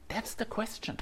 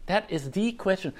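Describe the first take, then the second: First: Said in the usual way. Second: "the" said as a full, emphatic "thee"; stress on THE. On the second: Real, not acted. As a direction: lean on "the" to make it the one question. Restates it, stressing the article.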